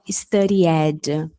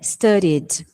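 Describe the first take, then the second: First: The ending is said as an extra 'ed' syllable. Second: The ending is said as a bare d sound. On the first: The speaker calls it wrong. "Nada de falar studied. Isso aí é a gente falando o português, que fala o E" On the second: The speaker calls it right. "Também some"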